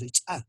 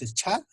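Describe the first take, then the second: First: "cha" with a popped ch'; explosive CH. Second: "cha" with a puff after the ch; aspirated CH. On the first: Teacher lists the two new phonemes, explosive "cha". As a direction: pop the ch of "cha" hard, no breath. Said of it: "tiene una explosión". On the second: Teacher lists the two new phonemes, aspirated "cha". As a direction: let breath burst out on "cha". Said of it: "Fonema H H es el cha". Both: Shown as a demonstration.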